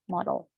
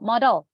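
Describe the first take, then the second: First: The word is said with English vowels. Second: The word is said with Indonesian vowels. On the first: "in English, we call it as model, like this" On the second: "I will keep saying it as modal"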